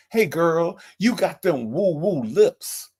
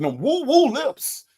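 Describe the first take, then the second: First: Imitating the caller. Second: Slow mock imitation, stretching woo-woo; mock imitation of the caller's line for the women in chat; imitating the caller. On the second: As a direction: drag out "woo-woo" slowly, mocking how he said it. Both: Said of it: "and that's how he said it".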